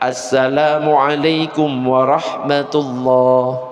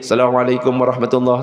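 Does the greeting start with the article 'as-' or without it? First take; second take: with; without. First: The greeting starts with the article 'as-'. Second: The greeting starts without the article 'as-'. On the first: The speaker calls it right. "ada alif lamnya" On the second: The speaker calls it wrong. "Gak ada kalimat assalamualaikum"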